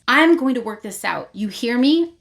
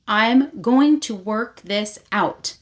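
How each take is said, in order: First: Slightly raised, insistent mock warning; confronting. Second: "I'm going to work this out" slowly, word by word; slow confronting emphasis. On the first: Vea to Rave, finally confronting her, insistent. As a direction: lay down a firm challenge. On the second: Retold or imitated. Vea confronts Rave, "I'm going to work this out" slow and emphatic. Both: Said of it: "finally confronts her and says".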